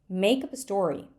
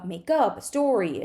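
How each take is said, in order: First: The stress falls on the word make. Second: The stress falls on the word up. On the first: The speaker calls it right. "That is called alternating stress" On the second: The speaker calls it wrong. "is pretty hard to say"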